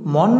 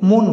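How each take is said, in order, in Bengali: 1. প্রথম স্বরধ্বনিটি একটি খোলা 'aw' ধ্বনি। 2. প্রথম স্বরধ্বনিটি একটি গোলাকার 'o' ধ্বনি। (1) "মন না বলে" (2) "মন বলে থাকি"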